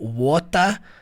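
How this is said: It is said in a British accent. "water britânico"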